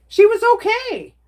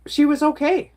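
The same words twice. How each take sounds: First: Much higher and louder, almost squealed; emphatic repeat. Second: Said in the usual way. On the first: Real, not acted. Reassuring her chat her mom made it through, emphatic and high. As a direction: stress it hard the second time, pitch jumping up.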